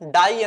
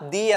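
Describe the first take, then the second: First: The vowel sounds like 'eye'. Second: The vowel sounds like 'ee'. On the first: The speaker calls it wrong. "ഇത് വായിക്കുന്നത് ഡൈ എന്നല്ല" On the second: The speaker calls it right. "ദി എന്നാണ്"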